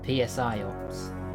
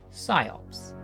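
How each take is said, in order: First: The opening P is pronounced. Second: The opening P is silent. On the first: The speaker calls it wrong. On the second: The speaker calls it right.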